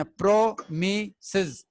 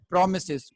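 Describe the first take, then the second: First: "प्रोमिसेस" broken slowly into three beats, pro-mi-ses; split into syllables. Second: Said in the usual way. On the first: Shown as a demonstration. Teacher counting three syllables for students, "प्रोमिसेस" split as pro, mi, ses. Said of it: "इसके तीन syllable हैं". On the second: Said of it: "इसको हम कहेंगे polysyllabic".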